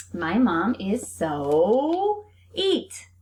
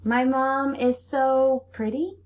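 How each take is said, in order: First: Very slow, leaning on eat; slow reading. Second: Slow, higher, rising on pretty; slow reading. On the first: Teacher reading a wrong sentence slowly to kids. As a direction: read it out for the class word by word. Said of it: "think about the correct sight word". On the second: Teacher reading the correct sentence to kids. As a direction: land on the right word with a lift. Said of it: "very nice". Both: Shown as a demonstration.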